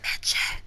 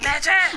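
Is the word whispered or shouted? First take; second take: whispered; shouted. First: The word is whispered softly. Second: The word is shouted loudly.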